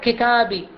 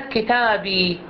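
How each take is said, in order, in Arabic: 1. تبقى الكسرة الأخيرة i قصيرة. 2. تُطال الكسرة الأخيرة i فتصير ee. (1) "راح يكتب لك ياء بالكسرة" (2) "راح يكتب لك كتابي بالياء"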